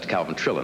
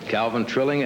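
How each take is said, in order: First: The surname ends with an -in sound. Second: The surname ends with an -ing sound. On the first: The speaker calls it right. "man's name is Calvin Trillin" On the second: The speaker calls it wrong. "I always want to say Trilling"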